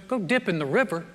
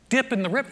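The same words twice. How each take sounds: First: Said in the usual way. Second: High, rising indignant question; upset disbelief. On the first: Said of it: "he, he goes". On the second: Acted. Upset commander repeating the order to dip, indignant disbelief. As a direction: throw it back as an offended question, pitched up. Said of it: "He's upset, he's mad".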